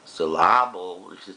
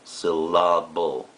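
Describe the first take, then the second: First: The stress falls on an unusual syllable. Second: The stress falls on the usual syllable. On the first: The speaker calls it wrong. "if we did the same syllable, sounds funny" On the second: The speaker calls it right. "we accent sylla the second second uh, syllable"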